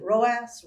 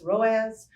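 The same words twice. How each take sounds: First: "roas" said as one word ending in a hissed s; pronounced as a word. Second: "roas" louder, ending in a buzzed z; alternate pronunciation. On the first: Professor showing how some people pronounce the ad metric, "roas" with s ending. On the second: Professor offering another way to pronounce the metric, "roas" with z ending. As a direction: say "roas" as "ROH-azz", voiced z at the end. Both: Shown as a demonstration. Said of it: "Some people pronounce it".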